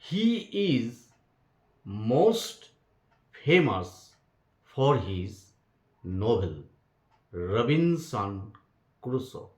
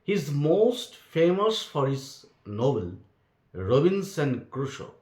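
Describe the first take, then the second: First: It is read slowly and carefully. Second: It is read at a normal pace.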